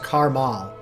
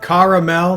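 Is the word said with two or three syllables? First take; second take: two; three. First: The word is said with two syllables. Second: The word is said with three syllables. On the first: The speaker calls it wrong. "not carmal" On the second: The speaker calls it right. "It's caramel"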